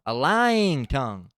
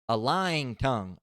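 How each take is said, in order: First: "lying" stretched long and much louder; hammered repeat. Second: Louder, slow emphatic reading; scripture reading. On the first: Driving home the sin to listeners, "lying" loud and drawn out. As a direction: boom out "lying", drawing the vowel right out. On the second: Reading the list of hated things, slow and emphatic. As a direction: weigh out "a lying tongue". Scripture phrase, first take. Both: Acted.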